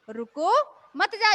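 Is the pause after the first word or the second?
first word. The pause comes after रुको.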